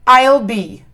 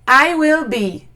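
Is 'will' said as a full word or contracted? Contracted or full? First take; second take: contracted; full. First: I and will are joined into one syllable. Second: Will is said as a separate full word.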